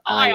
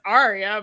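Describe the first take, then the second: First: It is said with an English accent, R dropped. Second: It is said with an American accent, R sounded. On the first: "but if you're English, Aya" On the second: "you say it as an American, it's Arya"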